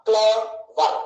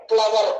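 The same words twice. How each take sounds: First: "క్లవర్" as two separate beats, cle, ver; split into syllables. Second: Said in the usual way. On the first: Shown as a demonstration. Teacher explaining disyllabic words, "క్లవర్" split in two. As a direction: put a clear break inside "క్లవర్" after cle. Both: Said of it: "అది రెండే ఉన్నాయి".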